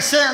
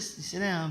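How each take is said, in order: First: It is said loudly and forcefully from the chest. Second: It is said quietly and calmly. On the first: "they say it with the chest. They say it a little loud" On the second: "they don't just say it calmly"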